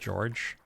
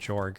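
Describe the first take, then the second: First: The name is said like the English name George. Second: The name is said as it is spelled, Jorg. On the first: This is probably the proper pronunciation. "I assume, by the way, that that's pronounced George" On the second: This way is funnier. "it's just a lot funnier to pronounce it Jorg"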